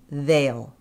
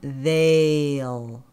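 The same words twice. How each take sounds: First: The word is said quickly and briefly. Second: The word is said slowly and drawn out. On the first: "Speed up" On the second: "So slow it down"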